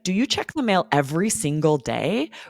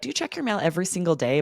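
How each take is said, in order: First: Every single day is slowed down and emphasized. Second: Every single day is said at normal speed. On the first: "We sort of slow down to emphasize" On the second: "You can just be like"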